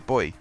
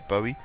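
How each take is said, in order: First: The word is said with one syllable. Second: The word is said with two syllables. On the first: It matches the word buoyancy. "because buoyancy. That's how I say it" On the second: It follows the letters of the spelling. "because it is B U O Y"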